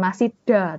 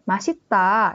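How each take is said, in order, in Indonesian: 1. Suku kata terakhir diawali bunyi d. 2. Suku kata terakhir diawali bunyi t. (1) "Bukan masih da" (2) "bacanya kayak masih ta"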